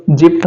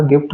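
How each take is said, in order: First: "जिप्ट" starting with a j sound; soft G, rule-based misreading. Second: "गिफ्ट" starting with a hard g; hard G, correct pronunciation. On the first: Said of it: "था, लेकिन नहीं है". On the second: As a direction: say "गिफ्ट" with g as in go, not j. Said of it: "यहाँ इसका उच्चारण क्या होगा?". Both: Shown as a demonstration.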